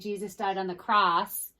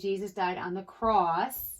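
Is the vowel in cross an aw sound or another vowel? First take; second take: another vowel; aw. First: The vowel in cross is not the aw sound. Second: The vowel in cross is the aw sound. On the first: The speaker calls it wrong. "We don't say" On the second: The speaker calls it right. "We say ... So the O says that aw sound"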